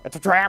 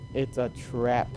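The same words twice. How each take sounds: First: It is said imitating Admiral Ackbar. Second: It is said in a normal voice.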